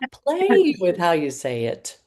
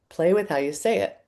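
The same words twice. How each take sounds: First: It is said in a lively, playful way. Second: It is said in a sincere, straightforward way. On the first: "I added more playfulness in how I said it, and it came more to life" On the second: "which is connected, real, authentic"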